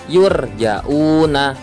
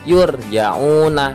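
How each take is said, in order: No difference in how they are said.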